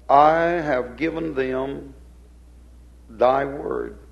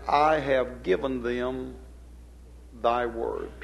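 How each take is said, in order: First: "I have given them" slow and loud, then "thy word" set apart; weighty, louder stress on "I have given them thy word"; emphatic repeat. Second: Said in the usual way. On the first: Shown as a demonstration. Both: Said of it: "placing the emphasis on".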